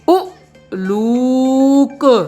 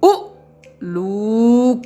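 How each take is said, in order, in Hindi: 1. शब्द बिना रुके, एक सुर में बोला जाता है। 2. पहली ध्वनि जल्दी से बोली जाती है और बाकी हिस्से से अलग होती है।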